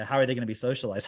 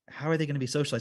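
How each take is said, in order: First: It sounds smug and triumphant, like a gotcha. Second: It sounds sincere and pleading, like asking for help. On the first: The asker thinks the question wins the argument. "They say it like, I got you" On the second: The asker genuinely wants to understand. "like this sort of like cry for help"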